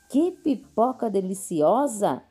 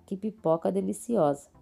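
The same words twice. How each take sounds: First: It is said with exclamatory excitement. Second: It is said flatly, as a plain statement.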